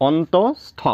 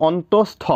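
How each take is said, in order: No difference in how they are said.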